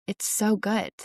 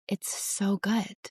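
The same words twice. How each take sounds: First: Said in the usual way. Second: Savoring calm. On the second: Retold or imitated. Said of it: "Now I love the pauses".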